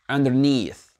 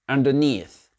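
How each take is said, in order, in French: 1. L'accent tonique est sur la deuxième partie. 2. L'accent tonique est sur la deuxième partie.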